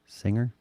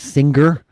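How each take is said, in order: First: The G is silent after the ng sound. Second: The G is sounded as a hard g. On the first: The speaker calls it right. "There's no G really, right? It's singer" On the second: The speaker calls it wrong. "we started saying singer and hangover? ... Why is there a hard G now?"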